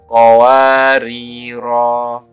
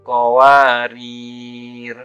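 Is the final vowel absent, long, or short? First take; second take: long; absent. First: The final vowel is held long. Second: There is no final vowel. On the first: The reader stops on the first word. "huruf ro dibaca panjang satu alif" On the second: The reader stops on the second word. "maka huruf ro dibaca sukun"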